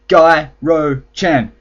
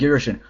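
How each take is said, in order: First: The name ends with a 'chan' sound. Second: The name ends with a 'shin' sound. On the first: The speaker calls it right. "I told myself I would pronounce it Gyro-chan" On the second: The speaker calls it wrong. "I keep calling him Giroshin"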